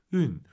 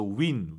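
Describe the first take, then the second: First: 윈 said with lips rounded into a tight ü; 윈 starting from a rounded 유 with pushed-out lips; rounded-lip vowel. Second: 윈 said with lips spread wide, English win vowel; 윈 with a flat, wide mouth like English win; wrong spread-lip vowel. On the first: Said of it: "입술을 동그랗게 말아서 유". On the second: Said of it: "그 윈 발음이 아니에요". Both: Shown as a demonstration.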